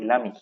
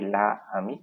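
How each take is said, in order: First: The article's vowel is dropped before ami. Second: The article's vowel is kept before ami. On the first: The speaker calls it right. "we say lami" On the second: The speaker calls it wrong. "we don't say la ami"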